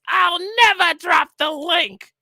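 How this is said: It is said in a Cobra Commander voice.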